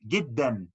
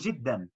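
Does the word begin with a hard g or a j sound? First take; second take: hard g; j. First: The first consonant is a hard g sound. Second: The first consonant is a soft j sound.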